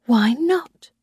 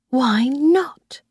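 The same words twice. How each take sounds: First: Said in the usual way. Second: A short whispered question, rising at the end. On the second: A narrator's reading. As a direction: breathe it as a private doubt. Narrator's inner puzzled question.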